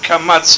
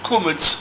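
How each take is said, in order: First: It is said with open 'a' vowels, 'kamatz'. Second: It is said with 'u' and 'e' vowels, 'kumetz'. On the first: This is the modern pronunciation used today. "in modern Hebrew" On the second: This is the old-fashioned pronunciation from long ago. "as it was known in those days"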